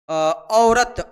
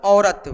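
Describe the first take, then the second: First: औरत stretched out very slowly, each sound drawn long; teacher spells out औरत at a crawl for the class; slow demo. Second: Said in the usual way. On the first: Shown as a demonstration. Teacher showing students the word, said very slowly. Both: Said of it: "देखिएगा यहाँ पे औरत".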